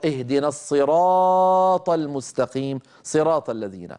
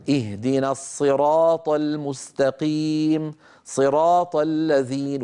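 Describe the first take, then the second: First: Slow recitation of اهدنا الصراط المستقيم صراط الذين with the long vowels held evenly; even vowel length in الصراط and صراط; recitation demo. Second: Slow demo of اهدنا الصراط المستقيم صراط with the first صراط stretched long; stretched صراط, wrong vowel length. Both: Shown as a demonstration. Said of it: "تطويل واحد وقصر الثاني لا يصح".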